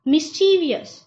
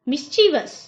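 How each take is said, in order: First: The word is said with four syllables. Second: The word is said with three syllables. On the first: The speaker calls it wrong. "इसको गलत प्रोनाउंसिएशन क्या किया जाता है?" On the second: The speaker calls it right. "इसका सही उच्चारण है"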